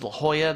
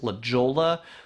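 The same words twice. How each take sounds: First: It is said the local, Spanish-style way. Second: It is said the way tourists say it. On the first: The speaker is a local. The speaker calls it right. "they don't pronounce this as La Jolla" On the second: The speaker is a tourist. The speaker calls it wrong. "they pronounce this as La Jolla"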